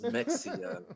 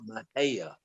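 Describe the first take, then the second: First: The middle consonant sounds like ks. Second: The middle consonant sounds like h. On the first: "like Mexican" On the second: "it's the Spanish pronunciation"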